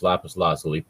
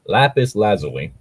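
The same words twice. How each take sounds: First: "lapis lazuli" said LAH-puss lah-SUH-lee; "lapis lazuli" with a flat ah and s sound; mispronounced lapis lazuli. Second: "Lapis lazuli" as LAP-iss LAZ-uh-lee; "Lapis lazuli" with short a in both words; corrected pronunciation. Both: Shown as a demonstration. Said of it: "I butchered that pronunciation".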